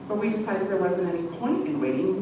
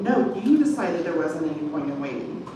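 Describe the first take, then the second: First: Said in the usual way. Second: "you" hit hard and held; stress on YOU. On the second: A narrator's reading. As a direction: lean into "you", the rest plain. Wes throws the decision back.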